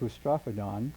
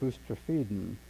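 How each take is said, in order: First: The third syllable has an 'o' vowel. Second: The third syllable has an 'e' vowel. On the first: The speaker calls it wrong. "I used to say boustrophodon" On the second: The speaker calls it right. "apparently it should be boustrophedon"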